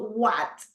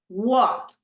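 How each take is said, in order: First: The vowel is an open A sound. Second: The vowel is a rounded O sound. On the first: The speaker calls it wrong. "no la A ... is no what" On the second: The speaker calls it right. "Tenemos la O"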